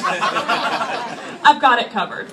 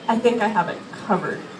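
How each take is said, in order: First: It sounds sure and confident. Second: It sounds hesitant and unsure.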